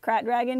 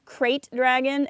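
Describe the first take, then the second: First: The first word does not sound like crate. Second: The first word sounds like the word crate. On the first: "I pronounce Krayt Dragon as Krat Dragon" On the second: "Krayt Dragon is a terrible pronunciation because it makes me think of a dragon made out of crates"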